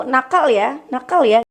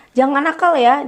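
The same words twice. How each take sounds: First: Mild echo of the warning; what the child hears. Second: A touch of a scolding parent. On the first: Child's brain hearing only naughty, light mock echo. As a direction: repeat "nakal ya" as the brain hears it. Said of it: "yang diterima anak pun begitu". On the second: Mother scolding her child, mild raised warning. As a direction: lightly warn the child, don't be naughty. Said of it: "kalau kita ngomong ke anak". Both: Shown as a demonstration.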